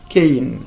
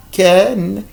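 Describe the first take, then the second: First: "kein" with a gliding "ay" before n; long A in cane. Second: "Ken" with short open "eh", then n; short vowel in can. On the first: Teacher contrasting cane with can, long A vowel. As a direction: say "kein" to rhyme with rain. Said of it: "on a le mot kein". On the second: Teacher contrasting can with cane, short vowel. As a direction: say "Ken" as the word can, no glide. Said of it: "dans le mot can". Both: Shown as a demonstration.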